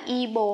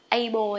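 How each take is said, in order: First: The first vowel sounds like 'ih'. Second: The first vowel sounds like 'ah'. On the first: "mình không đọc là y bồ" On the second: "hay là a bồ nhé"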